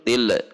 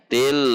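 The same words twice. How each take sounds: First: The L ends with a bounce. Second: The L is medium length and flows on. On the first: The speaker calls it wrong. "yang memantul" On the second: The speaker calls it right. "sifatnya adalah bainiyah"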